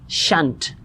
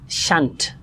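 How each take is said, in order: The two takes are said the same way.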